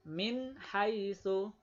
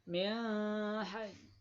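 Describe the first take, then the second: First: The n sound is pronounced clearly before h. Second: The n sound is changed, not pronounced clearly. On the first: The speaker calls it right. "jelas ini min, ini ha" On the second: The speaker calls it wrong. "nggak boleh. Berarti ini berubah"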